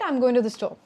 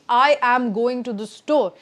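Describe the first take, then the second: First: The words run together smoothly without any gaps. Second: Each word is said separately with gaps between. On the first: The speaker calls it right. "how a natural speaker would say it" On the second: The speaker calls it wrong. "This is over articulating, pausing in between"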